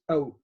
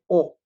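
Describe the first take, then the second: First: The vowel sounds like a native speaker's. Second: The vowel sounds like a non-native learner's. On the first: The speaker calls it right. "I can always tell a native speaker is oh" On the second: The speaker calls it wrong. "many of you say O"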